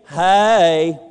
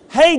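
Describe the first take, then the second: First: Hey is drawn out into two syllables, Georgia-style. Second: Hey is said as one short syllable.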